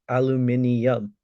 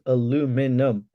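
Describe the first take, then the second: First: It is said with a British pronunciation. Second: It is said with a North American pronunciation. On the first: The speaker calls it right. "I disagree. It's pronounced aluminium" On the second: The speaker calls it wrong. "says it's pronounced aluminum"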